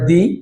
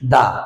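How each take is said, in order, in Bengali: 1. শব্দটি দীর্ঘ 'ee' স্বরে শেষ হয়। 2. শব্দটি হ্রস্ব 'uh' স্বরে শেষ হয়। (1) "ভাওয়েলের পূর্বে উচ্চারণ হবে দি" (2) "কনসোনেন্টের পূর্বে উচ্চারণ হবে দা"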